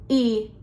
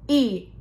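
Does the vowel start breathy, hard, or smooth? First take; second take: hard; hard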